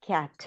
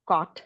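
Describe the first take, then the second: First: "کیٹ" with lips lightly open, front a; light front vowel. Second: "کاٹ" with the rounded-back vowel of English cot; wrong back vowel. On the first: Teacher modelling fatha for students, light front vowel in "کیٹ". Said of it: "جس طرح بولتے ہیں". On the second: Teacher showing what fatha is not, back vowel in "کاٹ". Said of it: "کاٹ نہیں ہوگی". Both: Shown as a demonstration.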